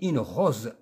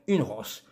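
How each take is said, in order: First: The s in rose is sounded as z. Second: The s in rose is sounded as s. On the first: The speaker calls it right. "On dit une rose" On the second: The speaker calls it wrong. "ولا نقول une rose"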